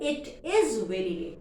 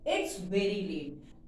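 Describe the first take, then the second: First: "It is" is said as two full words. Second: "It is" is contracted to one syllable. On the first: "अगर हम उसे बड़ा कहें" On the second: "contract form में हमने उसको थोड़ा छोटा कर दिया"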